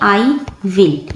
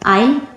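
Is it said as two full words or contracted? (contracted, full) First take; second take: full; contracted. First: It is said as two full words. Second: It is said as one contracted syllable. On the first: "इसको लिखेंगे आई विल" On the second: "इसे पढ़ेंगे"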